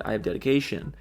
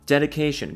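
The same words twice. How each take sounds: First: Said in the usual way. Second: Dedication. repeated higher, with a falling finish; proud echo of Dedication. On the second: Shown as a demonstration. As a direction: answer yourself with a punchy Dedication.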